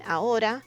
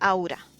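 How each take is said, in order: First: The a and o are said as separate vowels. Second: The a and o merge into one au sound. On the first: "instead of saying ahora" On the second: "a lot of people say aura"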